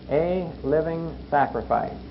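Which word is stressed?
sacrifice. The stress is on the word sacrifice. The duty is to sacrifice. "So we emphasize the word sacrifice"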